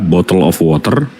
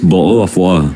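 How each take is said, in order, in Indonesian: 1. Ini diucapkan dengan aksen Amerika. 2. Ini diucapkan dengan aksen Inggris. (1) "Kalau Amerika" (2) "tapi kalau British"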